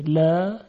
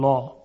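First: The L is light and thin. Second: The L is heavy and full. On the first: The speaker calls it right. "لا یعنی لام ترقیق میشه، ظریف ادا میشه" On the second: The speaker calls it wrong. "نمیگوییم"

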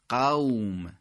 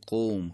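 First: It is said with classical Arabic pronunciation. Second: It is said with a Persian rounded o vowel. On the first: "در عبارات عربی فصیح و در قرآن میگیم قوم" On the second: "تو فارسی به حالت او میگیم، به حالت ذمه میگیم"

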